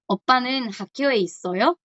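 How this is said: The voice rises at the end like a question.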